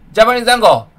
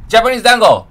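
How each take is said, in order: Both takes have the same delivery.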